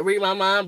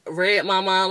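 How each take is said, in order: First: "Read" said with a long ee sound, like reed; "Read My Mind" with a long ee in "Read". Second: "Red" said like the colour red, short e; "Red My Mind" with "Red" rhyming with bed. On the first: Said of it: "like Read My Mind". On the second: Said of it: "but it's Red My Mind". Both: Shown as a demonstration.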